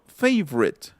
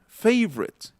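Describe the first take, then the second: Both takes have the same delivery.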